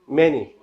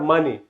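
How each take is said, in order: First: The first vowel sounds like 'eh'. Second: The first vowel sounds like 'ah'. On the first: The speaker calls it right. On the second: The speaker calls it wrong. "Not money"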